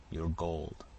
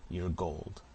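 First: A changed, darker repeat of the demand; menacing repeat. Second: Said in the usual way. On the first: A narrator's reading. Robber pressing the peddler for his hoard, menacing repeat.

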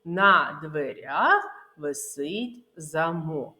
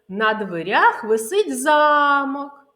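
First: Slow, careful model, замок as за-МОК; stress on the last syllable of замок. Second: Замок misstressed as ЗА-мок, louder and drawn out; stress on the first syllable of замок. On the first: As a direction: separate the words and lean on МОК in замок. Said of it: "необхідно правильно вимовляти слова". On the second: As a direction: hit and stretch ЗА in замок, as for a castle. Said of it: "як наголос може змінювати значення". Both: Shown as a demonstration.

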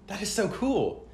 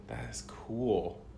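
First: Excited. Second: Said in the usual way. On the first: Real, not acted. Reacting to flexing board.

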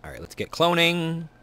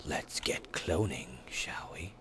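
First: Said in the usual way. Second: Soft unvoiced whisper. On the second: Shown as a demonstration. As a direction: breathe it out as a secret.

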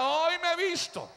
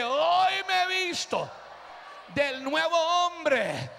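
First: Higher, proclaimed line to repeat; call for response. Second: Higher, drawn-out preacher's shout; shouted declaration. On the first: Preacher giving the church a line, proclaiming. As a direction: lead the crowd in a declaration. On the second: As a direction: cry it out and hold the words. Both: Real, not acted.

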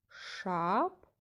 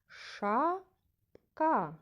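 First: "Шапка" split in two, first syllable rising. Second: "Шапка" with a long, rising first syllable and falling second; stress on first syllable. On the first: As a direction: say "Шапка" as shap... ka with a long pause. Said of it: "Поділимо кожне слово". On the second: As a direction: say "Шапка" as SHA... ka, stretching SHA high. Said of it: "Перший склад вимовлявся голосніше". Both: Shown as a demonstration.

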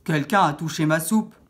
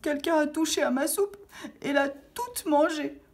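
First: Loud big papa bear voice; papa ours, grosse voix. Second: High, whimpering little bear; petit ours qui pleure. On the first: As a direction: boom it out like an angry father bear. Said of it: "de sa grosse voix". (grosse voix forte de papa ours) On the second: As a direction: wail it in a tiny high-pitched bear voice. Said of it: "se mit à pleurer tout bas". (petite voix aiguë d'ourson en pleurs) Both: A narrator's reading.

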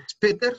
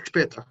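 First: SPÄTER said "espeter", plain S and sounded final R; S simple, a la española. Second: SPÄTER said "shpeta", SH opening and open A ending; S como sh. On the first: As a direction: put an E before "später" and sound its R. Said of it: "No decimos später". ("später" como "espeter", con S normal) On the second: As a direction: start "später" with SH, soften the final R to A. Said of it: "sino que decimos später". ("später" como "shpeta", con sh) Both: Shown as a demonstration.

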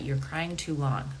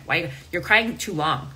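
First: Slower, letting the words hang in disbelief; slow incredulous repeat. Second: Louder, mildly scolding parent's line; a hint of a stern parent, louder; mock scolding parent. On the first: Retold or imitated. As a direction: repeat it slowly so it sinks in. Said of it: "Imagine being told that". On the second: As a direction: imitate a parent telling a child off. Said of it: "in my childhood, it was like".

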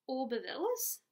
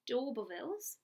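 First: "Aubervilles" said without the D, as "oh-ber-villes"; mispronounced title. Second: "D'Aubervilles" with a clear D at the start, "doh-ber-villes"; corrected pronunciation. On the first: Reader stumbling over the Hardy title, says "Aubervilles" without the D. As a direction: read "Aubervilles" missing its opening D sound. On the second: Reader correcting herself on the title, saying "D'Aubervilles" with the D. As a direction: fix it: say "D'Aubervilles", D sound first. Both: Shown as a demonstration. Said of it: "I didn't say that one right".

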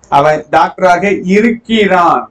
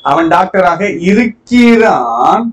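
First: Said in the usual way. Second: Slow, raised call on இருக்கிறான் with a rising tune; teacher stressing இருக்கிறான் with a rise; emphatic example. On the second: Shown as a demonstration. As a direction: stretch and lift இருக்கிறான் like calling out the example. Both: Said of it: "இப்ப இருக்கிற நிலையை சொல்றது state".

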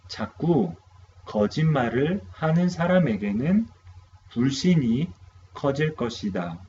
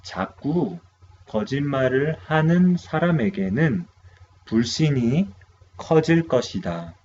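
First: Second quick model reading, same speed; rapid repeat of 거짓말을 하는 사람에게는; repeated fast model. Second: Quick teacher reading of the Korean sentence; brisk model read of 거짓말을 하는 사람에게는; fast model sentence. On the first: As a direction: say the sentence again fast for repetition. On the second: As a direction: run the sentence off fast for students to repeat. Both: Shown as a demonstration.

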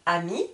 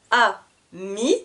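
First: Said in the usual way. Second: "ami" cut in two, a pause after "a"; split into syllables. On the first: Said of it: "je vous répète le vocabulaire de chaque mot". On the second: Shown as a demonstration. Teacher showing the two syllables, "ami" said as a... mi. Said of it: "le mot est coupé en deux".

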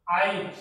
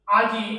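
First: আইজ said with the ই moved before জ; dialect aij. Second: আজি said loud with the ই at the end; standard aji. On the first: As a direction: slide the ই ahead: আইজ. (ই আগে এনে আইজ) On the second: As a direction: say আজি with জ first, then ই. (জ আগে, ই পরে: আজি) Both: Shown as a demonstration. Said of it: "এটাকে যখন আমরা আই উচ্চারণ করি".

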